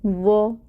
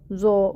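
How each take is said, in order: First: It starts with a heavy, soft th-like sound. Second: It starts with a plain, light z sound. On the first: The speaker calls it right. "बहुत मोटा करके पढ़ना है और फिर इसको नरम भी पढ़ना है" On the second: The speaker calls it wrong. "ये ज़ो इस तरह की साउंड नहीं आएगी"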